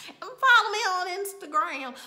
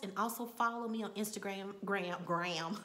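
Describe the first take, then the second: First: Said in the usual way. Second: Instagram in a Texas accent. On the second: Real, not acted. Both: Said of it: "My Texas accent came out".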